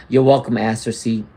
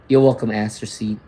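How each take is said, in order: Both takes have the same delivery.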